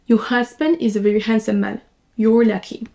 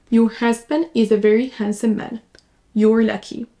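The two takes are said the same way.

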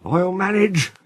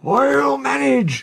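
First: Higher, breathless wheeze; puffing, effortful old engine; wheezing. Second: Very high, drawn-out wheeze; slow, gasping, effortful cry; wheezing. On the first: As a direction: wheeze it out, short of steam. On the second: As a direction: strain it out with no breath left. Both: A narrator's reading. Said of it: "he wheezed".

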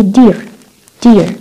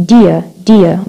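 First: "dear" with the final r pronounced; American R. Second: "dear" ending in a schwa, "dee-uh"; British silent R. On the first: Teacher demonstrating American "dear" with sounded r. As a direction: curl a clear r onto the end of "dear". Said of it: "بنلفظ صوت ال R هون". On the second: Teacher demonstrating British "dear" as "dee-uh". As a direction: drop the r at the end of "dear". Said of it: "ما بنلفظ صوت ال R". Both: Shown as a demonstration.

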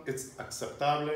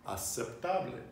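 First: "aceptable" with a k sound slipped in before the s; mistaken pronunciation. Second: "Aceptable" with a plain s, no k sound; correct pronunciation. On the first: Teacher showing learners a forgivable slip, "aceptable" mispronounced with a k sound. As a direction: say "aceptable" as ak-sep-TAH-bleh. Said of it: "don't worry about making that mistake". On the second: Teacher modelling the word for learners, "Aceptable" said with only an s sound. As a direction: say "Aceptable" as ah-sep-TAH-bleh. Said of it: "just think it through". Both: Shown as a demonstration.

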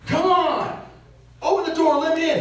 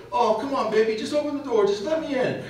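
First: High, loud demanding yell at his wife; angry yelling. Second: High, coaxing plea to his wife; sweet-talking. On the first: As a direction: bark it at her through the car door. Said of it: "and he's yelling at her". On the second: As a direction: soften and wheedle, not yell. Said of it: "His tone changes one hundred and eighty degrees". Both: Retold or imitated.

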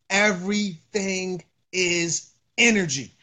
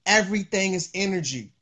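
First: Each word set apart; drawn-out, deliberate delivery with gaps; slow emphatic repeat. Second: Said in the usual way. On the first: Real, not acted. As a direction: spell it out slowly, word by word. Repeats point slowly for emphasis.

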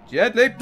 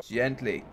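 First: Higher "gently", rising at the end; anxious coaxing. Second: Soft, low "gently"; careful coaxing. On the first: Player as the careful move slips, higher anxious warning. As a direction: plead "gently" with a tense upward lift. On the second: Player retrying a tricky spot, soft careful coaxing. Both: Real, not acted.

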